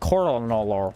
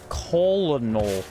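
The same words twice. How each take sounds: First: It sounds like kernel, with no L sound. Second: It is said with an L sound in the middle. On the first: This is how the word is actually said. "It's colonel" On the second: This is how the word would sound from its spelling. "It has an L in the middle of it. It'd be colonel"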